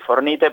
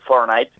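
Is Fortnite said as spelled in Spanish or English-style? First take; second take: Spanish-style; English-style. First: The name is read out letter by letter, Spanish-style. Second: The name is said with an English-like pronunciation. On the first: It is how an adult reading the word says it. "vos lo lees y decís Fortnite" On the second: It is how children who play the game say it. "ellos te van a decir Fortnite"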